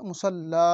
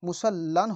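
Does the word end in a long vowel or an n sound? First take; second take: long vowel; n sound. First: The word ends with a long vowel. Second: The word ends with an n sound. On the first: The speaker calls it right. "মুসাল্লা। ঠিক।" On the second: The speaker calls it wrong. "মুসাল্লান হবে না"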